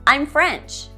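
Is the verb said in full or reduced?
reduced. The verb is reduced and joined to I.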